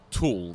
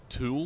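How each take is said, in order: First: The vowel is a steady, pure oo sound. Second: The vowel glides like ew, in a Queensland accent. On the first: This is the ordinary way of saying it. "instead of uh" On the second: This is how Queenslanders say it. "they'll say, like"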